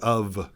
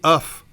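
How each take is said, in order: First: The word ends with a v sound. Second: The word ends with an f sound. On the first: "It's a v noise" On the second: "you're not saying of"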